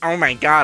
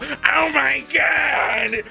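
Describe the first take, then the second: First: It is said flatly, without much feeling. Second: It is said with passion and energy.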